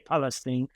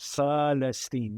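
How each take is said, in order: First: The word begins with a P sound. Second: The word begins with an F sound. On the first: This is how English speakers say it. "You say Palestine" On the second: This is how Arabic speakers say it. "we say as F"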